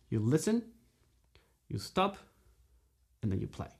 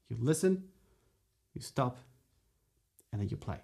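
The two takes are said the same way.

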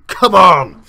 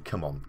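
First: Loud, high bellow; rousing shout. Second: Soft, low come on; quiet urging. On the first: Player rallying his team before kickoff, rousing shout. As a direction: yell to fire up the team. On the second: Player nudging his team before the match, quiet urging. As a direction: urge them under your breath. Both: Real, not acted.

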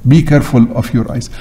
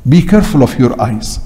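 The two takes are said the same way.

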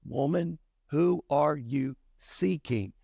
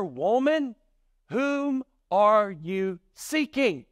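First: Lightly voiced Jesus, unhurried; Jesus's question. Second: Raised, drawn-out formal question; lightly voiced angel, slow and high; angel's question. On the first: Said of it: "And Jesus asked her". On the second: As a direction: ask it high and slowly, word by word. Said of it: "one of the angels asked her".

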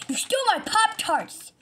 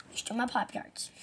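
First: High, loud furious accusation; angry shout. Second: Said in the usual way. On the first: Acted. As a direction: yell it in his face.

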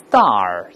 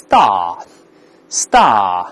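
First: American star, ending in a curled r; American pronunciation. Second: British star, long open ah with no r; British pronunciation. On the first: Teacher shows how Americans say it, American r in star. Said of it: "美国人都是star". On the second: Teacher shows how British people say it, British r-less star. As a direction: say star the British way, drawn out without r. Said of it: "英国人都是star". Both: Shown as a demonstration.

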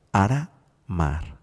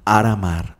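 First: "Aramar" slowly broken as Ara, pause, mar; split into syllables. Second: Said in the usual way. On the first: Shown as a demonstration. Teacher breaking a listener's name into syllables, "Aramar" slow and split. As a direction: draw out "Aramar" in two separated parts. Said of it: "La sílaba ar". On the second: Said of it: "¿Cómo se llama?".

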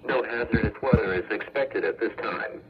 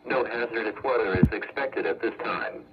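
Both takes have the same delivery.

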